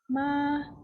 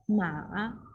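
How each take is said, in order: First: The syllable is said with a high level pitch. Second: The syllable is said with a dipping pitch. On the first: "One is first tone" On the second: "third tone"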